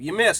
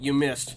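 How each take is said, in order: First: It is said in an angry voice. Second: It is said in a calm, plain voice.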